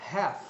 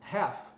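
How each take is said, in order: The two takes are said the same way.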